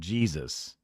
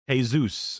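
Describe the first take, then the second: First: The word begins with a J sound. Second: The word begins with an H sound.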